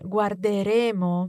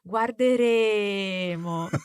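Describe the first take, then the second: First: The E vowel is said at normal length. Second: The E vowel is dragged out very long.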